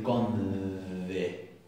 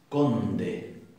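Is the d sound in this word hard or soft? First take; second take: soft; hard. First: The d is a soft, weakened sound. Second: The d is a hard, stopped sound. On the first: The speaker calls it wrong. "No vamos a decir conde" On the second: The speaker calls it right. "vamos a utilizar una D más dura"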